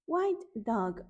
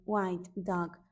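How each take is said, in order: First: Bright call. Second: Low echo. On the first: Teacher naming the animal for toddlers, sung out. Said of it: "first of echoed call". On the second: Teacher echoing the animal name, dropped low. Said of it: "lower echo". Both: Shown as a demonstration.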